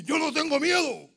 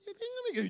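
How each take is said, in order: First: Loud, raised defiant cry; strong fearless voice. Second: Very high, scared squeak; voice of fear. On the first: Person who has lost their fear, loud strong declaration. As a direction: declare it with full force. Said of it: "esa voz fuerte". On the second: Before losing your fear, high frightened squeak. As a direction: say it in a mock-frightened falsetto. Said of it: "cuando pierdes el miedo, no es lo mismo". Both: Acted.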